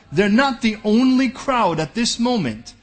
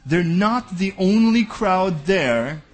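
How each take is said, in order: First: Slow, weighty "not" pressed hard; stress on not. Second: "only" drawn out slowly with a rising tune; slow emphatic repeat. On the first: Preacher repeating a point to the congregation, stress on "not". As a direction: lean on "not" in "they're not the only crowd". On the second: Preacher repeating the line for emphasis, slow stress on "only". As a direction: stretch "only" slowly in "They're not the only crowd there". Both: Shown as a demonstration. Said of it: "Listen to that again".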